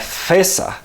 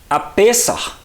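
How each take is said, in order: First: The word starts with a hissing F sound. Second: The word starts with a popping P sound. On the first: The speaker calls it wrong. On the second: The speaker calls it right.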